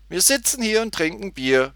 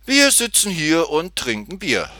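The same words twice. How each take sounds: First: High, louder mock-amused echo; a touch of laughter in a girl's high voice; amused repeat. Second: Man explains their pastime to Tutti, lightly sing-song higher voice; higher, louder line from a drinker; man explaining. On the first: Tutti repeats the man's rhyme back, mildly amused. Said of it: "wiederholte Tutti lachend". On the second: Man answers the girl's question, lightly voiced and higher. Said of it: "erklärte er". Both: A narrator's reading.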